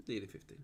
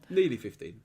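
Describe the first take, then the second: First: Much softer, lower repeat; quiet. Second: Said in the usual way. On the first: Real, not acted. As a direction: mutter it to yourself.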